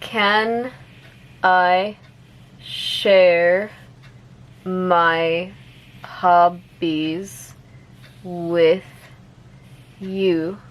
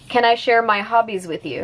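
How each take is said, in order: First: The sentence is spoken slowly. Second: The sentence is spoken at normal speed. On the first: "I'll say it slowly first" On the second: "one more time at normal speed"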